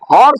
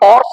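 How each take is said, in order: First: The word starts with an h sound. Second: The word starts without an h sound. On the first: The speaker calls it right. "এখানে হর্স বলি" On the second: The speaker calls it wrong. "এখানে অর্স বলি না"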